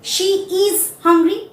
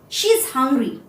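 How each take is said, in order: First: She and is are said fully and separately. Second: She and is are joined into one syllable. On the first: The speaker calls it wrong. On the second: The speaker calls it right. "while speaking, I will say she's hungry"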